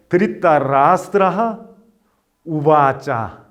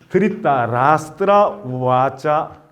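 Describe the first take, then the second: First: The words are separated, keeping the final h sound. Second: The words are joined, dropping the final h sound. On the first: "이게 지금 끊어 읽은 겁니다" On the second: "이어서 읽으면은 이 미사르가가 없어져요"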